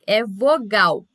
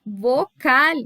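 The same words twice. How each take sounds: First: Vogal said firmly in Portuguese with a hard g; Portuguese translation vogal. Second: Vocal said Spanish style, ending on a rising tune; Spanish word vocal. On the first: Teacher giving students the Portuguese word, firm. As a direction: state vogal as the answer. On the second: Teacher presenting the Spanish term to students, rising. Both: Shown as a demonstration. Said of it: "Essa é a tradução".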